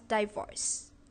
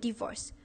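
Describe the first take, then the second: First: The word is pronounced in a Singaporean English way. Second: The word is pronounced in a standard English way.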